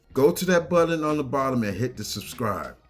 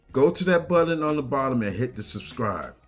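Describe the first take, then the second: Both takes have the same delivery.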